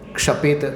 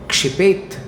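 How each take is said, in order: First: The vowel after 'ksh' is 'a'. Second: The vowel after 'ksh' is 'i'. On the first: The speaker calls it wrong. "क्षपेत अशुद्ध उच्चारण है" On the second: The speaker calls it right. "क्षिपेत ये शुद्ध उच्चारण है"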